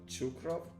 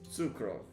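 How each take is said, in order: First: The name begins with a ch sound. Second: The name begins with a ts sound. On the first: The speaker calls it wrong. "So it's a ts, not a ch" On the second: The speaker calls it right. "Okay, so it's Sukrov"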